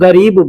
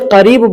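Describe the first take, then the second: First: The word begins with a 'g' sound. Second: The word begins with a 'k'-like sound. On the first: This is how local people say it. "लोकल में लोग गरीब बोलते हैं" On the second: This is the standard form of the word. "ऐसे करीब बोला जाता है"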